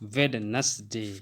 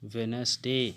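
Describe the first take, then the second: First: The first d sound is clearly pronounced. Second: The first d sound is left out. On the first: The speaker calls it wrong. "ना कि" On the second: The speaker calls it right. "क्या पढ़ेंगे"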